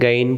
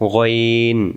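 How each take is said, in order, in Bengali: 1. প্রথম স্বরধ্বনিটি খোলা, অবৃত্তাকার 'a'। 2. প্রথম স্বরধ্বনিটি মোটা ও বৃত্তাকার। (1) "যারা আমরা গাইন গাইন পড়ছিলাম" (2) "গইন অক্ষরটা মোটা হবে"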